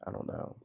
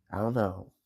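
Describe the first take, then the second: First: Breathy whispered doubt. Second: Said in the usual way. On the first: Real, not acted. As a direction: whisper it to yourself. Repeated doubt, second whispered.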